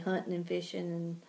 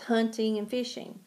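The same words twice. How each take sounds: First: The words are said in a slurred Southern way. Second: The words are said carefully with full endings. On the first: The speaker calls it wrong. "we in the South have a tendency to totally destroy words" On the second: The speaker calls it right. "we know it's hunting and fishing"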